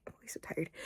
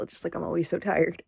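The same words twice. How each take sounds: First: Unvoiced whisper to herself; a weary whispered aside. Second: Said in the usual way. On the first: Real, not acted. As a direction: breathe it out as a tired whisper. Whispered repeat of own line.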